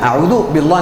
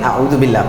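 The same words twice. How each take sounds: First: The L sound is thick and heavy. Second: The L sound is light and thin. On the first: The speaker calls it wrong. "नहीं पढ़ेंगे" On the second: The speaker calls it right. "पतला है"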